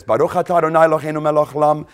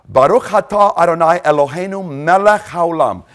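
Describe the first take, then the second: First: Rapid chanted Hebrew, "Baruch atah Adonai" run together fast; Hebrew blessing. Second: "Baruch atah Adonai" said clearly and evenly, each Hebrew word given its full weight; Hebrew blessing. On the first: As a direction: rattle off the Hebrew prayer quickly like a recited blessing. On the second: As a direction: intone the Hebrew blessing as a measured prayer. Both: Shown as a demonstration.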